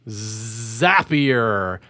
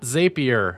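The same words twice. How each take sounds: First: The name rhymes with the word happier. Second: The name does not rhyme with happier. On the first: The speaker calls it right. "you are from Zapier" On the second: The speaker calls it wrong. "not Zapier"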